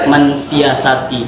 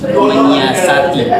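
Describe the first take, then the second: First: The prefix is followed by an 'ns' sound. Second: The prefix is followed by an 'ny' sound. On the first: The speaker calls it wrong. "Itu kesalahan" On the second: The speaker calls it right. "seharusnya itu menyi, menyiasati"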